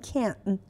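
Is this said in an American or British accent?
American. It is said in an American accent. "توی امریکن میگن ... این آخرش تش هم حتی نمیگن"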